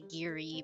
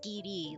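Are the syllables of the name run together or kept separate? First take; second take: run together; separate. First: The r runs smoothly into the vowel. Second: The two syllables are kept clearly separate. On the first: "English language, um, we will say Giri because we tend to roll the R with the I" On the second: "if you pronounce it in the Japanese syllable kind of way, it's Giri. Like they have the G I and the R I separate"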